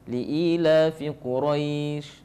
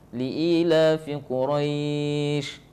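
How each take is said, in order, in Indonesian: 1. Vokal sebelum akhir ditahan sebentar. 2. Vokal sebelum akhir ditahan sedang. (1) "dua harakat" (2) "empat harakat"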